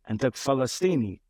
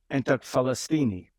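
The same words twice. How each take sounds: The two takes are said the same way.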